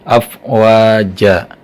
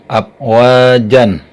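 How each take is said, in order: First: The word ends with a long open vowel. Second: The word ends with a short vowel plus n. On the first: The speaker calls it right. "tapi afwaja" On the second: The speaker calls it wrong. "jangan afwajan"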